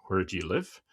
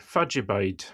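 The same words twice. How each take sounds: First: Said in the usual way. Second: Aberdonian Doric way of saying where do you live; Aberdonian accent. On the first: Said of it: "So instead of saying". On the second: Shown as a demonstration. Aberdonian host showing the local phrase, Aberdonian accent. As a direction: run it together as one word, Fadjabide, the Aberdeen way. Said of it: "you would say".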